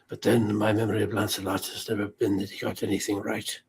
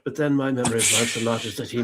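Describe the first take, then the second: First: It is said in an old Merlin voice. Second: It is said in the speaker's own voice.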